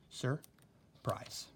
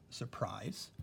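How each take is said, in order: First: "Surprise" in two parts, sur, pause, prise; broken into syllables. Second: Said in the usual way. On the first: Shown as a demonstration. Teacher breaking up the syllables for students, split in two. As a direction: say "Surprise" syllable by syllable with a clear gap. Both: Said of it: "let's break up the syllables".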